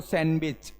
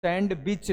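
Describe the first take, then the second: First: सैंडविच as 'san-bech', no D; silent D. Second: सैंडविच as 'sand-bich'; wrong, D pronounced. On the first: Teacher giving pupils the correction, सैंडविच as 'san-wich'. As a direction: leave the D out of सैंडविच. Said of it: "अब देखो सैंडविच". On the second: Teacher rejecting the spelled-out reading, सैंडविच with 'sand'. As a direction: hit the D in सैंडविच. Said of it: "सैंडविच नहीं". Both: Shown as a demonstration.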